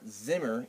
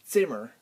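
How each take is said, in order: First: The word begins with a buzzing z sound. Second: The word begins with a ts sound. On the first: The speaker calls it wrong. "It's not Zimmer" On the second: The speaker calls it right. "it's Zimmer. ... like a T S together"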